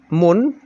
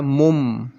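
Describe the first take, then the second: First: "mun" with a clear final n; wrong reading. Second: "mum" with a held final m; correct iqlab reading. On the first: Teacher shows what is not read, plain n ending. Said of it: "tidak dibaca". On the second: Teacher shows how it is read, hummed m ending. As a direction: turn the n of mun into m: "mum". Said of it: "tetapi dibaca mum". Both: Shown as a demonstration.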